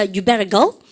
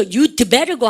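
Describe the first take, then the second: First: "You better" with no d after "You"; dropped D. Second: "You'd" with the d clearly sounded; audible D sound. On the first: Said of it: "드 발음 하지 마세요". (드 발음 없이 부드럽게 "You better go") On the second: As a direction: put a separate d between "You" and "better". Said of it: "아무도 드 사운드 안 합니다". ("You'd"의 드 소리를 살려서) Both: Shown as a demonstration.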